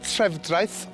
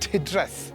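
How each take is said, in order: First: The name is said in its full form. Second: The name is said in a shortened form. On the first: This is the official written name. "it's Trefdraeth on the signs" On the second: This is how the locals say it. "they call it Tidreth"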